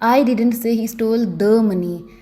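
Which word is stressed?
the. The word 'the' carries the stress. Some other money may have been stolen. "अगर मैं दी पर जोर डालकर बोलूँगी"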